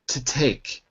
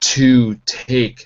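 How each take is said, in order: First: The vowel in 'to' is reduced to schwa. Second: The vowel in 'to' is said in full. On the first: The speaker calls it right. "but to take" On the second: The speaker calls it wrong. "not to take something"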